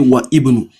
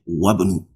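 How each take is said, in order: First: The 'i' of ibnu is pronounced as a separate syllable. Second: The 'i' is skipped so wa joins directly to bnu. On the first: The speaker calls it wrong. "If you pronounce it that way, that is not correct" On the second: The speaker calls it right. "From the wa, you jump it"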